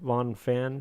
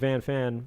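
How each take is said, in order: First: The first name has the vowel of 'on'. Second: The first name has the vowel of 'can'. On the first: The speaker calls it right. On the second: The speaker calls it wrong.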